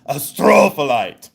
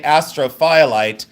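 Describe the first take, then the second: First: "astrophyllite" boomed as uh-STROOO-fuh-lite; hammed-up "astrophyllite", hard on STRO; imitated yell. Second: "astrophyllite" as AS-tro-FY-a-lite; "astrophyllite" split as astro plus FY-a-lite; phonetic spelling pronunciation. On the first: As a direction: mimic the man's mock-yelled "astrophyllite", STRO stretched. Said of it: "but he says astrophyllite". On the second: Shown as a demonstration. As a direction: say "astrophyllite" as it is spelt, with a long FY. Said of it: "in its phonetic s-, uh, spelling".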